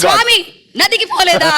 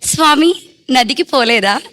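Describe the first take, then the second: First: It is said in a fierce, harsh tone. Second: It is said in a cute, sweet tone.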